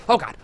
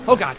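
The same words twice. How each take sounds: The two takes are said the same way.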